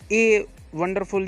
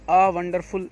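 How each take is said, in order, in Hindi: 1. पहला शब्द 'ay' जैसा सुनाई देता है। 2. पहला शब्द लंबी 'ah' ध्वनि जैसा सुनाई देता है। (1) "ये नहीं" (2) "ये नहीं"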